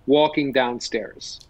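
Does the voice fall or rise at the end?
fall. The voice goes down at the end. It sounds like an American statement ending. The speaker calls it right. "But an American, the speech they're using goes all the way down"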